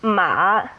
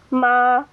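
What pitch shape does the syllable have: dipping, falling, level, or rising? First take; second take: dipping; level. First: The pitch dips low, then comes back up. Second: The pitch stays high and level. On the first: It means horse. "with a low dip" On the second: It means mother. "with the first tone on that high level"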